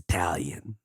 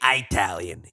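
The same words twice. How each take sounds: First: The word begins with an 'ih' sound. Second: The word begins with an 'eye' sound. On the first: The speaker calls it right. "It's Italian" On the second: The speaker calls it wrong. "Don't say Italian"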